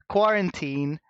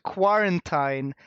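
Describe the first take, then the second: First: The ending does not sound like Valentine. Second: The ending sounds like the end of Valentine. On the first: It names a lockdown. "take the word quarantine" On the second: It makes the lockdown sound romantic. "change the pronunciation to quarantine, so it sounds a bit more like Valentine"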